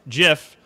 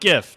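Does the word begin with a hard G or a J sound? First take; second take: J sound; hard G. First: The word begins with a J sound. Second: The word begins with a hard G sound. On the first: The speaker calls it right. "It's pronounced GIF, just like peanut butter" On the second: The speaker calls it wrong. "not GIF"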